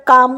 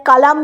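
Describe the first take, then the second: First: কাম with a silent l; কাম, the l left silent; correct pronunciation. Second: কালাম with the l sounded, as a wrong example; কালাম spoken with the l, marked as wrong; wrong pronunciation. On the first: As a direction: say কাম without the l. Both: Shown as a demonstration. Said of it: "কালাম বলি না".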